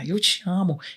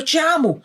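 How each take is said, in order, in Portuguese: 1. A frase é dita com tom carinhoso e amoroso. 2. A frase é dita com tom zangado. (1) "E a outra eu já falo com mais amor" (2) "Eu falo a frase eu te amo zangada"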